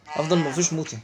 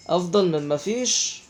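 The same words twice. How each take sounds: First: Said in the usual way. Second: Slow, rising at the end on مفيش; resigned slow repeat; slow drawn-out. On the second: Real, not acted. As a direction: stretch out أفضل من مفيش slowly, lifting the end. Repeats phrase slowly, rising.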